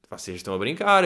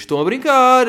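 First: Said in the usual way. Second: High, loud scolding; exasperated shout. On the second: Real, not acted. Telling listeners off for going out, loud scold. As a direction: scold them for joking around. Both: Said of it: "eu vou-vos dizer mais uma vez".

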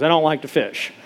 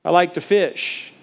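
First: "I don't like to fish" with "don't" hit hard; stress on don't. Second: "I like to fish" slowly, leaning on "like"; slow stress on like. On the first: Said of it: "re-say that". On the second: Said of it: "let me re-, re-say that". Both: Shown as a demonstration.

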